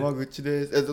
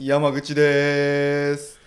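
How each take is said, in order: First: The ending is said short, without lengthening. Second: The ending is stretched out long.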